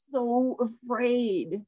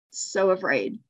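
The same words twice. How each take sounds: First: Soft and very slow; hushed, drawn out. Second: Said in the usual way. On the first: Shown as a demonstration. Repeating the word to the class, softly and slowly. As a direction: let the fear sink in, slowly.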